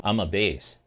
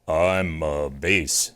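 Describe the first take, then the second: First: Said in the usual way. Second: Low and slow, showing off his bass; a booming low bass; deep bass voice. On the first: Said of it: "I'm not a baritone". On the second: Shown as a demonstration. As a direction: drop into the lowest register, drawn out. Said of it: "Let me prove it".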